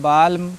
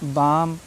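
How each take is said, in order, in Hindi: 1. M से पहले L की आवाज़ बोली जाती है। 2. M से पहले L साइलेंट होता है। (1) "ऐसे नहीं पढ़ना है" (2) "एल साइलेंट है"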